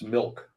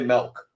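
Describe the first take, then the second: First: The vowel sounds like I, as milk. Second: The vowel sounds like E, as melk. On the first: It shows the usual way to say the word. The speaker calls it right. "It's milk" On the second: It imitates how someone else says the word. The speaker calls it wrong. "You say milk"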